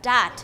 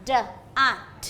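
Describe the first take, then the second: First: "dat" blended into one word, louder; blended sounds. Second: "d a t" as separate sounds, pauses between; sounded out. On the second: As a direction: sound out "d a t" one sound at a time. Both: Shown as a demonstration. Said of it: "ฝึกให้เด็กๆผสมเสียง เช่น".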